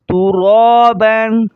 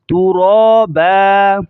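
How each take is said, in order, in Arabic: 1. تنتهي الكلمة بصوت النون. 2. تنتهي الكلمة بحرف ألف ممدود. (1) "पहले था तुरा बन" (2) "वक़फ़न के बाद तुरा बा, बा को खींचा जा रहा है"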